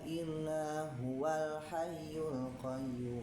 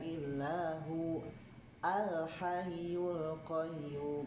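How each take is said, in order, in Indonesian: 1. Huwa langsung menyambung ke al-hayyul tanpa hamzah berhenti. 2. Ada hamzah berhenti sebelum al-hayyul, dengan awal glotalnya. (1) "kalau dia diwasal maka dia hilang" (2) "kalau dia diwakaf jadi ada ya"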